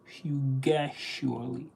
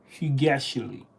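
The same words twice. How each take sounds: First: "fugaciously" drawn out slowly and softly, rising at the end; sounding it out. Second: Said in the usual way. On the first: Shown as a demonstration. Learner testing an unfamiliar word, slowly sounding out "fugaciously". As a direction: carefully try "fugaciously", stretched syllable by syllable, softly. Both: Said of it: "Am I even saying that".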